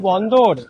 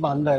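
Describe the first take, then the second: First: The first vowel is a rounded 'o' sound. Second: The first vowel is an open 'aa' sound. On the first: This is the speaker's own way of saying it. "আমার বন্দর উচ্চারণ হচ্ছে বন্দর" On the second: This is how others say it. "ওরা বলছে south Indian গুলো বলছে বান্দর"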